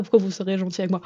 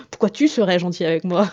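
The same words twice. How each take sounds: First: Said in the usual way. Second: "tu" picked out firmly as the corrected word; stress on TU. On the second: Shown as a demonstration. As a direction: correct yourself with weight on "tu". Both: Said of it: "On se rappelle qu'on se tutoie".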